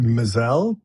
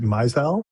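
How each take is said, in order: First: "Mizell" as muh-ZELL; habitual pronunciation. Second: "Mizell" as MY-zell; alternative pronunciation. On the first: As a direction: stress the second syllable of "Mizell". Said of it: "but is it Mizell?". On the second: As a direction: open "Mizell" with the word "my". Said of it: "I've always said Mizell". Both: Shown as a demonstration.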